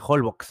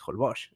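First: The final x sounds like 'ks'. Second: The final x sounds like 'sh'. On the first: This is how many people from elsewhere say it. The speaker calls it wrong. "mucha gente dice Holbox" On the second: This follows the Maya pronunciation. The speaker calls it right. "Y es Holbox"

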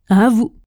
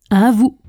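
No difference in how they are said.

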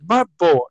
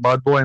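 First: It is said warmly, as an affectionate address. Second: It is said plainly, as a name.

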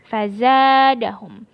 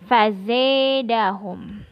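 First: The long vowel is a pure open a sound. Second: The long vowel is tilted toward an e sound. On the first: "Adapun yang lain al-baqun bil fathah" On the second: "bacaannya imalah yakni fazadahum"

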